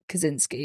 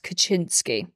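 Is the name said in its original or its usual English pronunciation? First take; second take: usual English; original. First: The name is said in its usual English form. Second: The name is said in its original form. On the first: "is how it is pronounced" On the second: "which is the original way to pronounce it"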